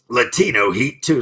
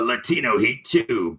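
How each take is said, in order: First: It is said in his normal voice. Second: It is said in a dramatic movie-trailer voice.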